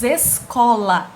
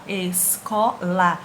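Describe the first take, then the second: First: Said in the usual way. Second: ESCOLA slow and lower, split es-co-la; syllable by syllable. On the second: Shown as a demonstration. Teacher splits the word for the class, slow syllable-by-syllable ESCOLA. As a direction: break ESCOLA into three separate, measured syllables.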